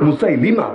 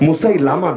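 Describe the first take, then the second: First: The third syllable is said with an 'i' vowel. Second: The third syllable is said with an 'a' vowel. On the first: The speaker calls it right. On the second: The speaker calls it wrong. "এটা ভুল উচ্চারণ, মুসাইলামা না"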